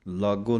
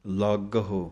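First: ਲਾਗੋ with a plain o ending; wrong pronunciation. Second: ਲਾਗਹੁ with a sounded h and short final u; correct pronunciation. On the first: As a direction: drop the h, two-syllable ਲਾਗੋ. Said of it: "ਲਾਗੋ ਨਹੀਂ ਕਹਿਣਾ". (ਹਾਹੇ ਤੋਂ ਬਿਨਾਂ ਲਾਗੋ) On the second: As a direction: say ਲਾਗਹੁ as laaga-hu, three syllables. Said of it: "ਹਾਹੇ ਦੀ ਔਂਕੜ ਦਾ ਧਿਆਨ ਰੱਖਣਾ". (ਲਾਗਹੁ ਦੇ ਹਾਹੇ ਔਂਕੜ ਦੀ ਆਵਾਜ਼ ਦੇ ਕੇ) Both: Shown as a demonstration.

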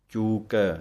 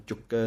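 First: ਚੂਕੈ with a long uu and full ai ending; correct ਚੂਕੈ. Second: ਚੁੱਕੈ with a short u and doubled k; the wrong clipped ਚੁੱਕੈ. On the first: Teacher showing the right vowel in ਚੂਕੈ. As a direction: say ਚੂਕੈ with ai, never ਚੁੱਕੈ. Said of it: "ਚੱਚੇ ਦੇ ਦਲੈਂਕੜਾਂ ਹਨ". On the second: Teacher showing the mistaken way to say it. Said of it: "ਨਹੀਂ ਕਹਿ ਦੇਣਾ". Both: Shown as a demonstration.

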